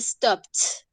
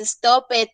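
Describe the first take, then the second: First: The ending is said as a plain t. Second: The ending is said as an extra syllable. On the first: The speaker calls it right. "vamos a tomar esta terminación ed como el sonido de la T" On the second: The speaker calls it wrong. "no se dice stop it"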